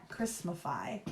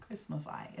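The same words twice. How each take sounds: First: Christmafy whispered with a rising tune. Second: Christmafy very soft, falling off. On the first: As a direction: whisper the word Christmafy, questioning. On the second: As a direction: let Christmafy fade away quietly. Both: Shown as a demonstration. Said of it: "Is that a word?".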